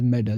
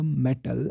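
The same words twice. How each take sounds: First: "medal" with a d where metal has a t; American flapped t. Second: Said in the usual way. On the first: Shown as a demonstration. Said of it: "it is pronounced d". ("medal" में t की जगह d) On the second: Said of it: "if t occurs between vowels".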